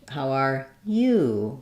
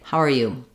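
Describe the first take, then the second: First: The pitch rises then falls on 'you'. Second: The pitch stays level across the phrase. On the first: It is a real question about how someone is. "With a rise fall um, on the you" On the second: It can just mean hi. "more flat"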